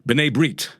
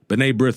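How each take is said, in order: First: The name is pronounced the Hebrew way. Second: The name is pronounced the usual English way.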